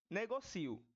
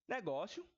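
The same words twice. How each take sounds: First: "negocio" stressed ne-go-CI-o, i and o apart; final separado. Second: "negócio" stressed on GÓ, io run together; final junto. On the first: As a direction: punch the CI in "negocio". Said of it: "Já aqui eu falo negocio". ("negocio" com I-O separado, tônica no CI) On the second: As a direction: say "negócio" as ne-GÓ-syo. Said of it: "Eu falo assim, negócio, eles todos juntos". ("negócio" com IO junto, tônica no GÓ) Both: Shown as a demonstration.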